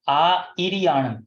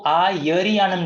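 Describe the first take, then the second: First: It begins with 'ai', no y sound. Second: It begins with 'aya', a y sound. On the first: The speaker calls it right. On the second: The speaker calls it wrong.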